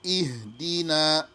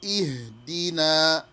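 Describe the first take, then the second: The two takes are said the same way.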